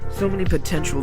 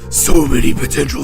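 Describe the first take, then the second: First: It is read in a plain natural voice. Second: It is read in a put-on character voice. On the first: The speaker calls it wrong. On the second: The speaker calls it right.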